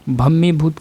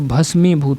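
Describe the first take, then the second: First: A double 'm' sound with no 's'. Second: An 's' sound comes before the 'm'. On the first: The speaker calls it wrong. "भम्मीभूत का अशुद्ध ये है" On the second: The speaker calls it right. "भस्मीभूत होता है"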